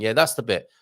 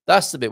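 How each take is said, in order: First: Said in the usual way. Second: "That's the bit" said again, louder and higher; emphatic repeat. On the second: Real, not acted. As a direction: hammer the point home a second time.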